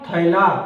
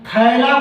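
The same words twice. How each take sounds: First: The first vowel glides from aa to i. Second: The first vowel is a single vowel sound. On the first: This is the Khortha pronunciation. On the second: This is the standard Hindi pronunciation.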